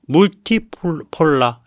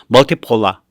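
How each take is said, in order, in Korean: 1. 첫 모음은 독일식으로 'oo' 소리가 납니다. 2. 첫 모음은 영어식으로 'uh' 소리가 납니다. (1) "독일어 발음으로" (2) "영어 발음으로"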